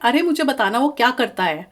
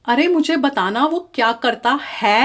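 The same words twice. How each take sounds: First: Some sounds are dropped in a shortened form. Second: Every word is pronounced fully and carefully. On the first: The speaker calls it right. "आप बोलते हैं" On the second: The speaker calls it wrong. "नहीं बोलते आप"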